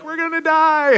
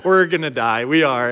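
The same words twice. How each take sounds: First: Mock panic, voice jumping high; panicked kids. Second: Said in the usual way. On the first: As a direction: squeal it like scared teens. Kids panicking on speeding boat.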